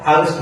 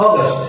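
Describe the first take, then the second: First: "আগস্ট" with a Bangla middle u, aa-gust; wrong pronunciation. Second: "আগস্ট" as English aw-gast; correct pronunciation. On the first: Teacher showing learners what to avoid, wrong pronunciation. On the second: Teacher modelling August for learners, correct pronunciation. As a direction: open second vowel in "আগস্ট", aw-gast. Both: Shown as a demonstration. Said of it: "আগস্ট না ভাইয়া".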